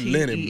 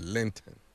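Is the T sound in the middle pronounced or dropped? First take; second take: dropped; pronounced. First: The middle T sound is dropped. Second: The middle T sound is clearly pronounced. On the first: The speaker calls it wrong. "Not linen" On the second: The speaker calls it right. "but Lenten. ... Get that T in there"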